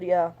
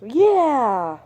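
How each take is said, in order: First: Said in the usual way. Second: Loud, high, overjoyed "Yeah!"; eager yeah. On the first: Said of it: "But I said". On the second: Shown as a demonstration. Accepting Chelsea's offer of help, shouted with glee. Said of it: "Oh, pessimist".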